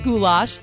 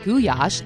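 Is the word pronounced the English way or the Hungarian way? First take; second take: English; Hungarian. First: The word has the usual English pronunciation. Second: The word has the Hungarian pronunciation.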